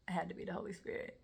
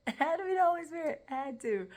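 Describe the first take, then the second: First: Said in the usual way. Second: Loud, high, quick insistence; emphatic conviction. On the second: Real, not acted. Woman testifying what came over her, emphatic conviction. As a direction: burst out with it, utterly convinced. Emphatic repeat crediting the Holy Spirit.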